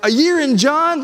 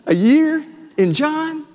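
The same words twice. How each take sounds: First: It is said with eager, excited enthusiasm. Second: It is said with doubtful, unimpressed skepticism. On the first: The listener looks forward to the long study. "Let's go. That's going to be great" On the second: The listener expects the long study to be dull. "That sounds kind of boring"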